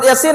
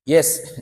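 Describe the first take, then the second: First: It is spoken as two syllables. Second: It is spoken as one short syllable. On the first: The reader has studied with a teacher. The speaker calls it right. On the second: The reader never studied with a teacher. The speaker calls it wrong.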